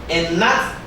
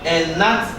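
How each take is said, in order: The two takes are said the same way.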